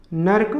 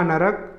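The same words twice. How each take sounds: First: नर्क in one syllable, "nark"; wrong नर्क. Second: नरक in two syllables, "na-rak"; vowel between r and k in नरक; correct नरक. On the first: Teacher showing the error, नर्क as "nark". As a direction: join r and k in नर्क. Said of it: "अशुद्ध शब्द है". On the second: Teacher giving correct form, नरक as "na-rak". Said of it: "शुद्ध रूप होगा". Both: Shown as a demonstration.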